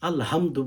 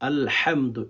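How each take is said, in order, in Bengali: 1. h হলো একটি নরম, সাধারণ শ্বাসযুক্ত ধ্বনি। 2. h হলো গলার গভীর থেকে আসা একটি কর্কশ ধ্বনি। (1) "এক হরফের জায়গায় অন্য হরফ পড়লে" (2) "এখানে গলাতে ভেতর থেকে হুম হচ্ছে উচ্চারণ করতে হয়।"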